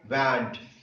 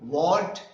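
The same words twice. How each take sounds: First: It is said with a German accent. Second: It is said with an English accent. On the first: "Some of the words he pronounced like the Germans" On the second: "instead of saying want"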